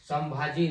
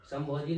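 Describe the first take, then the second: First: संभाजी with a clear long aa in the middle; correct pronunciation. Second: संभोजी with an o sound in the middle; the mistaken संभोजी, o in place of aa; wrong pronunciation. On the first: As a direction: say संभाजी, not संभोजी. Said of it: "संभाजी ना कि संभोजी". (संभाजी का सही उच्चारण, बीच में लंबा आ) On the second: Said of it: "संभोजी नहीं". (गलत उच्चारण संभोजी, बीच में ओ) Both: Shown as a demonstration.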